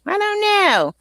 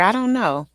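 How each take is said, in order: First: Much higher, playful I don't know; high, hammed-up uncertainty; playful singsong. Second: Said in the usual way. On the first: Real, not acted. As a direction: toss it out high-pitched and exaggerated. Playful exaggerated repeat of same phrase.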